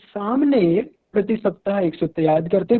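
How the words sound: The stress falls on the first word. This person does it and nobody else does. "अगर हम सामने पर ध्यान दे रहे हैं, जोर दे रहे हैं"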